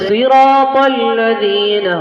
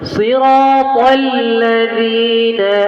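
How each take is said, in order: First: The letters are let go quickly, not held. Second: Each letter is held fully before moving on. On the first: The speaker calls it wrong. "আপনি যদি পড়েন সিরাতাল লাযীনা হবে হবে না" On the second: The speaker calls it right. "ধরে রাখতে হবে।"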